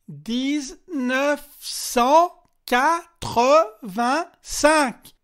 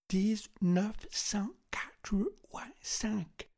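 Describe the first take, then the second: First: It is said loudly in a French accent. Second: It is said in an English accent. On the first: "Il articula très précisément, un peu comme lorsqu'on parle à un étranger" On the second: "tenta de le dire avec un accent anglais"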